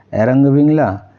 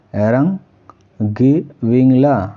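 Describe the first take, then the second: First: Said in the usual way. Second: এরাং গি বিংলা broken into slow separate syllables; slow repeat. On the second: Shown as a demonstration. Teacher repeating a Tamil phrase slowly for students to copy. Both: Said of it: "তখন তামিল ভাষা হয়ে যাবে".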